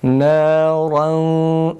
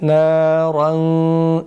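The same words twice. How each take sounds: Both takes have the same delivery.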